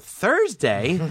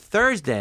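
First: Thursday? asked with a rising tune; disbelieving echo. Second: Thursday said with a falling tune; flat answer. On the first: Young comic repeating the agent's answer, Thursday? rising in disbelief. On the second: Agent on the phone telling him the day, falling tune. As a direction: state Thursday as plain fact. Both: Retold or imitated.

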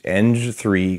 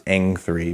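First: Eng said like "enj", with a j sound; soft-g pronunciation. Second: Eng said with a ringing ng ending, no j; proper pronunciation. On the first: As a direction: say eng to rhyme with "revenge". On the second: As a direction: say eng to end like "length" without the th. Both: Shown as a demonstration. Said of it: "properly pronounced eng three".

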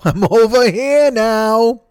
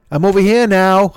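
First: Higher, very slow, through a laugh; slow laughing repeat. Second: Said in the usual way. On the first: Acted. Host teasing listeners, slow and higher with a laugh. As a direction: stretch every word out, giggling. Repeats line, second time drawn out.

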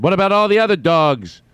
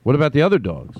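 First: Put-on high-pitched, louder kid's protest. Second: Said in the usual way. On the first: Imagined kid questioning a parent about the dogs, high protest. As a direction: plead it like an upset kid, pitch way up. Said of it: "would have said if I had a kid". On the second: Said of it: "That's what I would have said".

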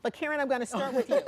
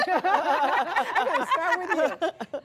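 First: Said in the usual way. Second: Laughing through the words, higher and louder, slow. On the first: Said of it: "I don't know which one of you to start with first". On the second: Real, not acted. Host laughing as she picks Karen first. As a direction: repeat it while cracking up.

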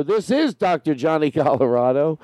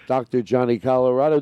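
First: Tentative radio host introduction, stress on IS; lightly put-on host sign-on; trying out a character. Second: Said in the usual way. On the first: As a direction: introduce yourself as a late-night host. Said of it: "I think I'm in a character". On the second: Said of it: "It's hard to do these".

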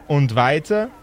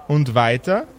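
No difference in how they are said.

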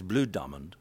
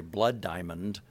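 First: "Bloed" said with an oo vowel, like blude; explaining DiCaprio's accent, "Bloed Diamond" with an oo vowel; South African pronunciation. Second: Said in the usual way. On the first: Shown as a demonstration. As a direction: stretch "Bloed" into an oo sound, South African style. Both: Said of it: "it comes out correctly as".

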